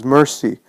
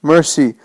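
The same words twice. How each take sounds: First: Mild moan on MERCY; moaned plea. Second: High, anguished cry of MERCY; shouted plea. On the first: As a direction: moan MERCY, less forceful than a shout. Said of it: "and he moans". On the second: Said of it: "covering his face and shouting". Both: A narrator's reading.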